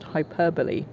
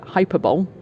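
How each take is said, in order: First: It does not begin like the word 'hyper'. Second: It begins like the word 'hyper' in 'hyperactive'. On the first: The speaker calls it right. "I think it's pronounced hyperbole" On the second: The speaker calls it wrong. "I always pronounced it uh, hyperbole because hyper, hyperactive"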